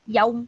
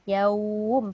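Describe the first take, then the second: First: The vowel is held for only one short beat. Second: The vowel is lengthened over at least two beats. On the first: The speaker calls it wrong. "Dia tak boleh baca yaum" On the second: The speaker calls it right. "Yaum paling kurang"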